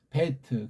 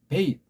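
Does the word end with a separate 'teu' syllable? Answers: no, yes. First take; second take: yes; no. First: The final t is said as a separate syllable. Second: The final t closes the syllable, with no vowel. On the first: The speaker calls it wrong. "그건 엉망진창 꼬인 소리예요" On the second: The speaker calls it right. "이거 타오를 이 앞에 음절에 받침으로 넣는 거예요"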